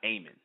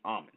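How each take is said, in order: First: The first vowel is an 'ay' sound. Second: The first vowel is an open 'ah' sound. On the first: The speaker calls it wrong. "not Amen" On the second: The speaker calls it right. "it's supposed to be Amen"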